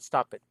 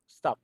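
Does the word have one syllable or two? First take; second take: two; one. First: The ending is said as an extra syllable. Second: The word ends in a plain t sound. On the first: The speaker calls it wrong. "not stop it" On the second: The speaker calls it right. "you don't say the ed"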